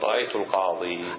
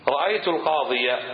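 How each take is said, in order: First: The final ya ends with no vowel. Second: The final ya carries a short a vowel. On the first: The speaker stops at this word. "لكن أردت أن تقف تقول" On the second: The phrase continues without a stop. "تظهر الفتحة"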